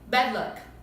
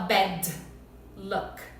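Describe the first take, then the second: First: The D is held softly without releasing air. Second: The D is released with a puff of air. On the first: The speaker calls it right. "É bem suave" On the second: The speaker calls it wrong. "Eu não vou falar bad luck"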